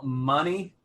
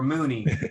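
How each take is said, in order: First: The first vowel is a short 'uh' sound. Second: The first vowel is a long 'oo' sound.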